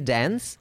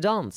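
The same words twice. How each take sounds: First: It is said in an American accent. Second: It is said in a British accent. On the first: "only Prabhu Deva and Americans say dance" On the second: "British say dance"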